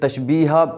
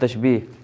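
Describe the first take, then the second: First: The word ends with an added 'a' vowel. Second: The word ends without an added vowel. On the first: The speaker calls it wrong. "इसको फिर तशबीहा पढ़ रहे होते हैं। तो ये लफ्ज़ तशबीहा भी नहीं है" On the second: The speaker calls it right. "ये लफ्ज़ तशबीह किस तरह लिखा हुआ है"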